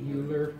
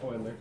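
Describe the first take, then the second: First: The name is said the way it is spelled. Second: The name is said unlike its spelling. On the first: The speaker calls it wrong. "I read it and I see Euler, and it's not pronounced like that" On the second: The speaker calls it right. "It's Euler"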